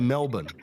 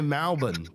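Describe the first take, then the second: First: The first vowel sounds like an 'e'. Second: The first vowel sounds like an 'a'. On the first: This is how Melbourne people do not say it. "They don't say Melbourne" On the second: This is how Melbourne people say it. "their E's sound like A's. They say Melbourne"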